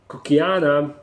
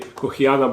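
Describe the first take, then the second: First: The name has an Americanized, mixed-up pronunciation. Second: The name has a Latin-style pronunciation. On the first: This imitates how an American would likely say it. The speaker calls it wrong. "mixture between actual American pronunciation and something random" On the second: This is the proper scientific name pronunciation. The speaker calls it right. "correct Latin pronunciation would be"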